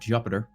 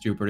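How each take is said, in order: First: The first syllable sounds like 'Jup'. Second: The first syllable sounds like 'Jupe'. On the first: The speaker calls it wrong. "It's not Jupiter" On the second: The speaker calls it right. "The planet is Jupiter"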